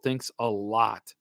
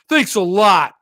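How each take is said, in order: First: Said in the usual way. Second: Louder, slow sarcastic thanks with a laugh. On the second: Shown as a demonstration. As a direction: make the thanks drip with mock sarcasm. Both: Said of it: "Does that sound sarcastic?".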